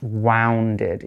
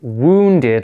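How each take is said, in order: First: The first vowel does not sound like moon. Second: The first vowel sounds like the one in moon. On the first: The speaker calls it wrong. "and not wounded, even though it's got a U" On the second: The speaker calls it right. "like O O, like moon"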